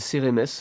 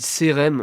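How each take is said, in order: First: The name ends with a final syllable 'mès'. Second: The name ends without a final syllable 'mès'. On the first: This is how the speaker thought the name was said. "je pensais qu'on disait Cérémès" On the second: This is how the broadcaster says the name. "sur France T V, il dit Cérème"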